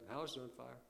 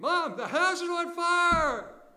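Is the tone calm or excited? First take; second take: calm; excited. First: It is said calmly, without any excitement. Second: It is screamed with alarm and excitement.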